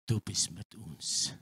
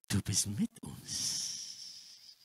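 First: Said in the usual way. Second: Slow, hushed, unvoiced prayer; slow whisper. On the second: Preacher repeats the prayer to God in a slow whisper. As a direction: whisper it slowly to God, assured.

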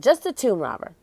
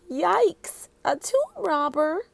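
First: Said in the usual way. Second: Put-on high little-girl yelp of alarm. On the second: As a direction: squeak it out, startled. Annie alarmed by robber idea.

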